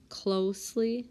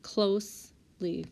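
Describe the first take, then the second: First: Said in the usual way. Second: "closely" slowly split into close, then ly; syllable by syllable. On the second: Shown as a demonstration. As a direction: say "closely" slowly with a break before the ly. Rechecks word syllable by syllable.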